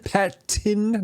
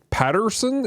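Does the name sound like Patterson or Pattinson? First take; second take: Pattinson; Patterson. First: The name is said with an n sound, Pattinson. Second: The name is said with an r sound, Patterson. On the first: The speaker calls it right. "not Patterson" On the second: The speaker calls it wrong. "I kept calling him Robert Patterson"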